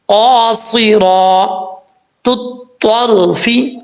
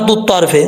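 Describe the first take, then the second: First: The first t is light, the second heavy. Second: Both t sounds are said heavy and full. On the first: The speaker calls it right. "पहला ता बरीक" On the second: The speaker calls it wrong. "ऐसा नहीं पढ़ना"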